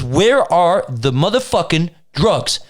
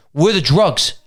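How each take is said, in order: First: WHERE ARE THE MOTHERFUCKING DRUGS slowly, each word separated; insistent word-by-word demand. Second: Said in the usual way. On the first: Retold or imitated. Officer repeats demand after being questioned.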